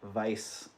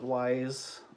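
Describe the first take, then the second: First: The name begins with a V sound. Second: The name begins with a W sound. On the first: The speaker calls it right. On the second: The speaker calls it wrong.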